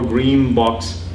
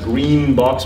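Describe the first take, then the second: First: The nasal at the end of green is assimilated. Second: The nasal at the end of green is alveolar. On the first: "with an assimilated nasal across that word boundary" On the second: "with an alveolar nasal"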